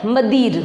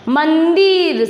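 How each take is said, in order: First: "मदिर" with no n sound before द; missing anusvara. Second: "मंदिर" with a clear, held n before द; anusvara sounded. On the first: Teacher showing what is read without the dot, "मदिर" without its n. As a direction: say "मदिर", dropping the nasal after म. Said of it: "इसकी कमी के चक्कर में हम इसे क्या पढ़ रहे हैं". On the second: Teacher showing the word once the dot is added, "मंदिर" with its n sounded. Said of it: "शब्द क्या बन गया मेरा". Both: Shown as a demonstration.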